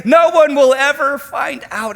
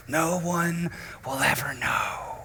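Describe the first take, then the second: First: High, loud, eager reassurance; loud tempting voice of sin. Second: Hushed whisper of a secret. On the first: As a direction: call it out like a cheerful tempter. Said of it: "it says". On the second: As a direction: breathe it like a secret no one may hear. Sin speaks secretly. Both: Acted.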